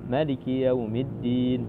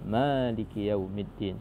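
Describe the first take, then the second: First: The first vowel of Maliki is short. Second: The first vowel of Maliki is long. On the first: It is read exactly as written. "kita membaca dengan tahqiq itu bacaannya" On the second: It is read as if an extra letter is present. "ada alif di depan, di depan mim ... sehingga dibaca panjang dua harakat"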